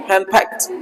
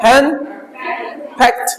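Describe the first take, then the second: First: हैंड फैक्ट run together, softly, with a light closing t; joined, light final T. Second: हैंड ... फैक्ट in two separate parts, light t last; split, light final T. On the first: Teacher putting the word back together, हैंड फैक्ट joined with light T. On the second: Teacher breaking the word down for students, हैंड / फैक्ट split, light T. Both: Shown as a demonstration. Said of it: "हल्का ट लेके जाएंगे".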